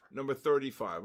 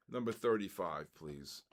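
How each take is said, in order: First: Said in the usual way. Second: Number read in a much lower, softer voice; deliberately low. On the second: Shown as a demonstration. Host reads the number again, deliberately low and soft. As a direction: drop the voice way down for a joke. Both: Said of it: "I'm gonna go low".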